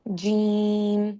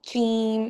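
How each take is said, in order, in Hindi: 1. शब्द की शुरुआत घोष 'j' की आवाज़ से होती है। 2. शब्द की शुरुआत अघोष 'ch' की आवाज़ से होती है। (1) "हमें आनी चाहिए ज" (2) "ऐसे नहीं पढ़ना है कि चीम ... च की आवाज़ नहीं आनी चाहिए"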